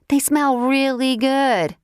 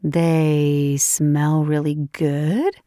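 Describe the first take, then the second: First: Said in the usual way. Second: Slow teasing question; teasing disbelief. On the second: Acted. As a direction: drawl it back, amused. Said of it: "Layla giggled".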